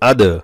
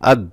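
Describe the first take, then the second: First: The d is released with an echoing bounce. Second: The d is stopped flat without a bounce. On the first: "আজ দালে কলকলা করলাম" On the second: "আর যদি কলকলা না করে তাহলে কিভাবে হয়"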